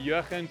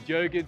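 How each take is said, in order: First: The name is said with an Afrikaans accent. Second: The name is said with an English accent. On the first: An Afrikaans speaker would say it this way. "if you were the Meneer" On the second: An English speaker would say it this way. "if you were English"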